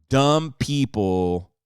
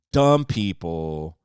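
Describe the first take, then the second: First: Dumb drawn out slow and loud; slow emphasis. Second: Dumb again slow and loud, pitch dropped; slow emphasis. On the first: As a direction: lean hard on dumb, slowly. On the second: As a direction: land dumb heavily, slower. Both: Acted. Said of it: "repeated for emphasis".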